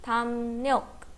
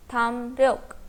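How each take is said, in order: First: "tham ryok" said as tham nyok; R becomes N. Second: "tham ryok" with an R after the M; pronounced as spelt. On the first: Teacher shows the change, "ryok" said as nyok. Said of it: "लेयर का sound किस में change होगा?". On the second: Teacher repeats example for learners, "tham ryok" with written R. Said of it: "with leer". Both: Shown as a demonstration.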